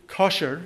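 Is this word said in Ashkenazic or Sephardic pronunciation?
Ashkenazic. It is said in Ashkenazic Hebrew pronunciation.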